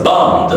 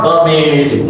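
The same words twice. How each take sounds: First: 'bummed' as bumd, one syllable; voiced D ending. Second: 'bummed' mispronounced as bum-med; wrong extra syllable. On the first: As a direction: end 'bummed' with m straight into D. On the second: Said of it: "Not bummed". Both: Shown as a demonstration.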